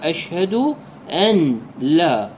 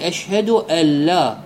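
First: The n is pronounced clearly before the l. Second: The n is merged into the following l. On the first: "يلفظ النون ويفكها بدون أن يدغمها" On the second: "بدون أن يلفظ النون"

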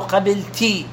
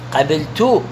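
First: The word ends with an 'i' vowel, qabilti. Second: The word ends with a 'u' vowel, qabiltu. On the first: The speaker calls it wrong. "بالكسرة" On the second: The speaker calls it right. "خلوا عليها ضمة لو سمحتم"

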